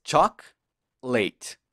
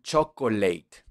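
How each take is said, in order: First: Chocolate split slowly into chok, leit; correct pronunciation. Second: Chocolate in three beats, cho-co-leit; wrong pronunciation. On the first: Teacher correcting learners, two-beat chocolate. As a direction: drop the middle o in chocolate, pause between halves. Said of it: "Que no es así". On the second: Teacher imitating learners' error, mispronounced chocolate. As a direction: say chocolate slowly with the middle o sounded. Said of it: "no me la pronuncian muy bien". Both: Shown as a demonstration.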